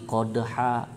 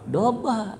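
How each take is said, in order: First: The word begins with a k sound. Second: The word begins with a d sound. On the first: The speaker calls it wrong. "tapi di sini beda" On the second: The speaker calls it right. "Yang benar apa? Dobha"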